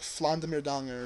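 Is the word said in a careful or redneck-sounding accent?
redneck. It is said in a broad redneck-sounding accent. The speaker calls it wrong. "I just said like like a really redneck Flandemerdangen"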